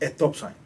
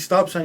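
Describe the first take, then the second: First: It is said in Cuban Spanglish, with an added e. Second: It is said in plain standard English.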